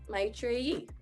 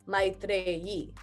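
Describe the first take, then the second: First: Said without an accent, R not rolled. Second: Said with an accent and a rolled R. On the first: "Without an accent" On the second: "if I'm saying it with an accent, I would say"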